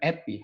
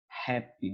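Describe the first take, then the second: First: The word begins without any h sound. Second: The word begins with a clear h sound. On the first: The speaker calls it wrong. "bukan happy" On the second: The speaker calls it right. "bacanya H"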